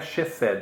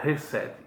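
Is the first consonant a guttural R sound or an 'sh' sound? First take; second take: sh; guttural R. First: The first consonant sounds like 'sh'. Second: The first consonant sounds like a guttural R. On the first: The speaker calls it wrong. "Não é chesed" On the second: The speaker calls it right. "é reset, como se fosse um R"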